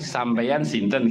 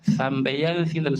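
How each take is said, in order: First: The words begin with a plain s sound. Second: The words begin with a lisped th sound. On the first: "sampeyan sinten gampang" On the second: "Tapi kalau pakai sa, sampeyan sinten sulit kan?"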